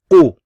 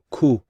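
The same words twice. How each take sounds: First: The k sound is heavier and deeper. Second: The k sound is light and plain. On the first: The speaker calls it right. "Bit heavier, bit more heavier" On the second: The speaker calls it wrong. "you don't want to pro pronounce this as ku"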